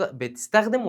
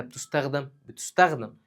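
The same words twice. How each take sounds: First: "بتستخدم" said as betistakhdem, with i and e vowels; "بتستخدم" with an i after the first t and an e in the last syllable; active-voice vowels. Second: "بتستخدم" said as bitustakhdam, with u and a vowels; "بتستخدم" with an u after the first t and an a in the last syllable; passive-voice vowels. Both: Shown as a demonstration. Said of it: "يبقى مبنية للإيه؟".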